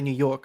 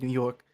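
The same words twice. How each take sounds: First: It is said in a plain, neutral accent. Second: It is said in a strong New York accent.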